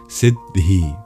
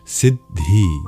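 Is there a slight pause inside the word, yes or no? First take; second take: yes; yes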